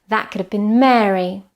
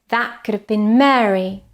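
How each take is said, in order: Both takes have the same delivery.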